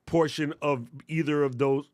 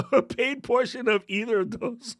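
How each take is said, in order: First: Said in the usual way. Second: High, laughing voice with a rising end; laughing repeat. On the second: Real, not acted. Host repeats a phrase that didn't work out, laughing. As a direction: crack up while repeating your own phrase, pitch climbing.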